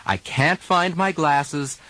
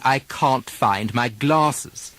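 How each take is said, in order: First: Can't and glasses with the American flat A, slow. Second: Can't said as cahn't, very slow; British broad A. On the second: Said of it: "changing of the vowel a to r". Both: Shown as a demonstration.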